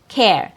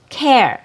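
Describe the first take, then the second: First: The vowel is a short E before R. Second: The vowel is a short E before R.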